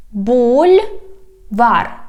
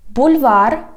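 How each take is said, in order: First: "Бульвар" slow, split in two syllables. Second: Said in the usual way. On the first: Shown as a demonstration. Teacher teaching street words, "Бульвар" slowly by syllables. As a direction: stretch "Бульвар", pausing between the two syllables. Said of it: "divide it into syllables". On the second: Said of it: "I read the whole word".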